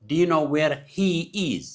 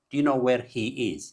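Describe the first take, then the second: First: HE and IS drawn out slowly and pitched up; slow, emphatic model sentence, leaning on "he is"; stress on HE IS. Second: Said in the usual way. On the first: Shown as a demonstration. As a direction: stretch "he is" to show the word order. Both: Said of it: "ጌጋ".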